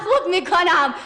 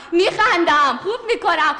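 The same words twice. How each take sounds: First: Said in the usual way. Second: Words pushed out through laughs; laughing on command; forced laughter. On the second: Pretend. Actor told to laugh, forcing laughs through words. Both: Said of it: "بخند".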